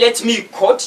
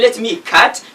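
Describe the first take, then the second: First: The vowel sounds like the one in cot. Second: The vowel sounds like the one in cat. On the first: "you are C O T" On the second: "you are cut, like C A T"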